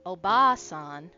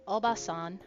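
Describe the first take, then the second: First: The second vowel is drawn out long. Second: The second vowel is short. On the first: It means grandmother. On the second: It means aunt.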